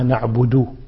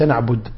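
First: The final D ends with a clear u-vowel. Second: The final D has no clear vowel. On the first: The speaker calls it right. "وإنما نعبد" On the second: The speaker calls it wrong. "لا يظهر ضمة نعبد"

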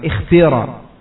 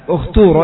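First: The word is said with pure i vowels. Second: The word is said with clear u vowels. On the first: "kasrah dengan kasrah yang khalisah" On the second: "ya di dhammah karena ta-nya di sini dhammah"

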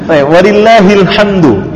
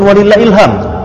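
First: The word ends with a d sound and u. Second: The word ends in m with no d sound. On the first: The speaker calls it right. "Itu aslinya" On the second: The speaker calls it wrong. "Jadi bukan walillahilham. Gak ada dalnya"

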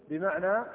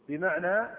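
No difference in how they are said.

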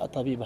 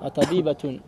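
First: The word stops short on a plain final a. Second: The word ends fully pronounced with -atun. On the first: The speaker calls it wrong. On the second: The speaker calls it right.

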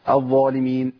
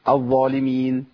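Both takes have the same delivery.

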